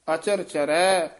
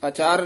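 First: ਅਚਰ said cleanly as written; correct pronunciation. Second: ਅਚਰ said the incorrect way to avoid; wrong pronunciation shown. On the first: Teacher gives the student the right form, careful ਅਚਰ. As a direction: model ਅਚਰ ਚਰੈ carefully. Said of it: "ਇੱਥੇ ਅਚਰ ਹੀ ਉਚਾਰਨ ਕਰਨਾ ਹੈ". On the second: Teacher warns the student against the mistake, wrong ਅਚਰ. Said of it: "ਅਚਰ ਨਹੀਂ ਕਹਿਣਾ ਹੈ". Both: Shown as a demonstration.

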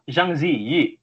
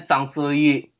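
First: "Zhang Ziyi" read as written, with j and z sounds; spelling pronunciation. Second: "Zhang Ziyi" said as SANG SOO-yee; corrected pronunciation. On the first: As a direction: say "Zhang Ziyi" as JANG ZEE-yee. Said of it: "itu bacanya Zhang Ziyi". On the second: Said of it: "itu bacanya". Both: Retold or imitated.

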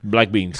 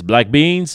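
First: BLACK BEANS with a falling, settled tune; echoed answer. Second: BLACK BEANS with a rising question tune; imitated server question. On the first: Retold or imitated. Customer echoes the server's offer, "black beans" falling as an answer. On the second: Server offers the legumes to customer, "black beans" rising as a question. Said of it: "Là, ils me disent".

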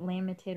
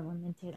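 First: "lamented" stressed on first syllable, LAM-ented; alternative pronunciation. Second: "lamented" stressed on second syllable, la-MENT-ed; alternative pronunciation. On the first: Reader unsure of a word, "lamented" as LAM-ented. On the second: Reader unsure of a word, "lamented" as la-MENT-ed. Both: Shown as a demonstration. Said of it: "is it lamented or lamented?".

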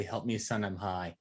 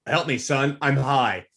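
First: Much lower and softer, a hushed plea; hushed, lower imitation. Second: Said in the usual way. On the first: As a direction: say it low and hushed, like a secret phone call. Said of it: "I would kill for Fargo to call me and say". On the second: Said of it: "his dad's like".

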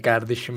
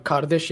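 First: "kardeşim" with a hard g for the k; Zonguldak pronunciation. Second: Said in the usual way. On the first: Shown as a demonstration. Showing how Zonguldak friends talk, "kardeşim" starting with g. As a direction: say "kardeşim" as "gerdeşim". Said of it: "böyle kardeşim falan yapıyorlar". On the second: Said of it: "kardeş yerine kardeş diyorlar".

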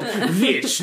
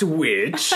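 First: "Witch" drawn out as the correct name; corrected pronunciation. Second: Said in the usual way. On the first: Shown as a demonstration. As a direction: say "Witch" slowly, as a pointed correction. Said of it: "It's called Witch, not Witch". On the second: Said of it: "not Witch".

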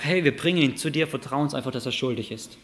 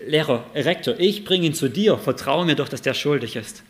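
First: Said in the usual way. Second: Mock pleading student. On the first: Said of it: "Und die sagen einfach". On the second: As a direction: beg the principal to just trust you. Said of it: "Anton denkt sich".

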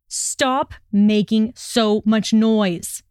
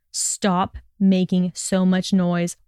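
First: Very slow, weighted growled order; foreboding growl. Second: Slow, restrained cross order; scowling order. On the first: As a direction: growl it out word by word. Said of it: "he growled, his voice a foreboding rumble". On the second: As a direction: scowl through a measured demand. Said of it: "he scowled". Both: A narrator's reading.

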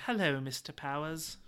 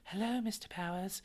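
First: Lightly attempted girly fembot greeting; half-hearted try at a girly voice. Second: Soft, high attempt at a girly voice; awkward high voice. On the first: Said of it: "That's my girly voice". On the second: Shown as a demonstration. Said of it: "if I try to go high".

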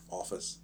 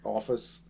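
First: Office said softly as if in air quotes. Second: Said in the usual way. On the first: Shown as a demonstration. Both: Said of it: "I did air quotes around office there".

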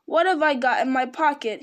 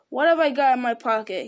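First: Raised, louder repeated question. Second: Louder, musing question to himself; said aloud. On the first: Bilbo repeating his question to Gollum, louder. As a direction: insist on the question with more volume. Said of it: "he said louder". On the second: Bilbo talking to himself, said aloud. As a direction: wonder out loud, voice raised. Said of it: "he said aloud". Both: A narrator's reading.

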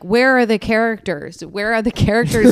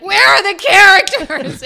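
First: Understated pretend yell; mild mock yelling. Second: Shrieked very high, loud and drawn out; high-pitched screaming. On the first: Podcast guest showing how she'd distract attackers, mild mock yell. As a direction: sketch the yell without really letting go. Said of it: "I'd probably start yelling, like". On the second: Pretend. Podcast guest pretending to distract attackers, high-pitched mock scream. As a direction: screech it like a crazy person, slowly stretched. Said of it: "very high-pitched screaming".

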